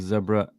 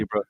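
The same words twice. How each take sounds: First: The word is said in a British pronunciation. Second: The word is said in an American pronunciation. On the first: "in England you might call it zebra" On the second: "In America you might call it zebra"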